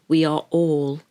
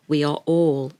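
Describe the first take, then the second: No difference in how they are said.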